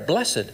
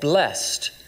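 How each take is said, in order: First: The word is said in two syllables. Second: The word is said in one syllable.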